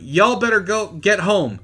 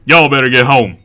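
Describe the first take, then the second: First: It is read in his own plain voice. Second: It is said in a put-on imitating voice.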